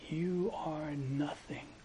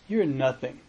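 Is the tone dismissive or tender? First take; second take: tender; dismissive. First: It is said softly, with tender wonder. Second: It is said as a dismissive put-down. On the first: The listener is freed from the burden of self. "just the change of intonation is" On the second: The listener is worthless. "one way we would express this is"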